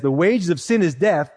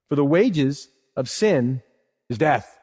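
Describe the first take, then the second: First: Said in the usual way. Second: Slow, weighty reading of the verse; solemn quote. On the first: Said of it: "he says". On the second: Shown as a demonstration. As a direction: lean on wages and death, slowly. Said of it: "Look what he says next".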